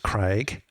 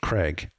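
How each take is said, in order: First: The name is said without an American accent. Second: The name is said with an American accent. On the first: "my name is Craig" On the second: "they'll pronounce it Craig. That's an accent"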